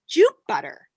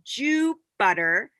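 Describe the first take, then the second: First: It is said a little bit faster. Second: It is said slowly, syllable by syllable.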